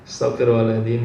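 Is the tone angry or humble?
humble. It is said in a soft, humble, contrite tone. The speaker admits their own fault. The speaker calls it right. "Lah niki istighfar yang betul seperti itu"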